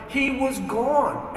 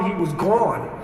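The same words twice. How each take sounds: First: Slow, drawn-out he was gone; slow, stunned. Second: Said in the usual way. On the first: Retold or imitated. After searching the empty street, a slow, stunned repeat. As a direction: let he was gone hang, slow and disbelieving.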